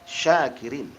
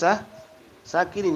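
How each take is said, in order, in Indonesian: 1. Kata ini diawali dengan bunyi sh. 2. Kata ini diawali dengan bunyi s biasa. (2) "jadikan aku pemabuk artinya"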